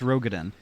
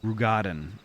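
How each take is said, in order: First: The first syllable does not sound like 'rude'. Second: The first syllable sounds like 'rude'. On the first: The speaker calls it wrong. "ninety percent of the of player mispronounce Rogadin" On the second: The speaker calls it right. "Ru, like rude"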